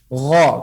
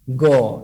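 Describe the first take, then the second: First: The letter is said with an open 'a' vowel. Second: The letter is said with a rounded 'o' vowel. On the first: The speaker calls it right. "Tapi gha" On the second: The speaker calls it wrong. "bukan go. Go. Ini salah"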